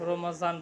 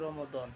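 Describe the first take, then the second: First: The middle consonant is a z-like sound. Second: The middle consonant is an emphatic d-like sound. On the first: This is the usual local way of saying it. "তাকে রমজান বলি আমরা বাংলাতে" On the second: This is the original Arabic way of saying it. "কিন্তু আরবিতে হবে রমদন"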